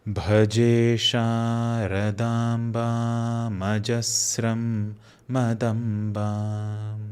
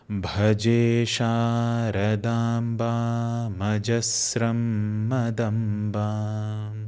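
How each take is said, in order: The two takes are said the same way.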